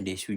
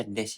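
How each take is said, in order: First: "desu" in two full syllables; "desu" with final u. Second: "desu" cut to one syllable, "des"; "des" without final u. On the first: Teacher quoting village pronunciation, "desu" with the u voiced. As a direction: say "desu" with the u sounded. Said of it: "desu ya dibaca desu juga". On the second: Teacher explaining Japanese usage, "des" with silent u. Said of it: "desu dibaca des ya". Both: Shown as a demonstration.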